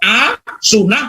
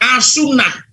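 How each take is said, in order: First: It is said with a break after 'a'. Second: It is said joined, with no break after 'a'. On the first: It is an acceptable way to say it. The speaker calls it right. "Kalau A, sunnah, saya masih bisa menerima" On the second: It puts an insulting word at the front. The speaker calls it wrong. "Bukan dipotong"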